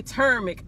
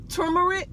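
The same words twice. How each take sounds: First: Turmeric as TER-mik, r-coloured first syllable, middle vowel dropped; the other way of saying it. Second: Turmeric with a "too" first syllable, too-mer-ic; one way of saying it. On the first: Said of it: "and some people say". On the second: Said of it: "some people say turm". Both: Shown as a demonstration.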